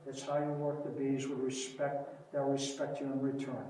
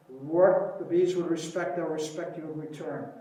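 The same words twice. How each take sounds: First: Quieter, hushed restating of the motto; soft repeat. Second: Said in the usual way. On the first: Retold or imitated. Beekeeper softly repeating his motto to the crowd. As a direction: drop the voice and let it land.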